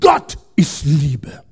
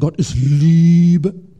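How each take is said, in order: First: The stress falls on the word Gott. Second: The stress falls on the word Liebe. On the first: The point is that God defines what love is. The speaker calls it right. "man muss sagen" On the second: The point is that God is loving. The speaker calls it wrong. "man betont den Satz vollkommen verkehrt. Man muss nicht sagen"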